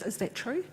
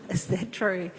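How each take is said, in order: First: Doubting question. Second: "Is that true?" a bit louder, falling, with a chuckle; amused rhetorical question. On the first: Retold or imitated. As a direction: ask "Is that true?" as a private doubt, ending up. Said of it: "my first thought is". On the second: Real, not acted. Preacher to congregation after checking the source, amused. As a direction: toss off "Is that true?" as a knowing joke. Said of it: "It's always good to check your sources".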